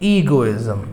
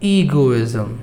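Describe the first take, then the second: The two takes are said the same way.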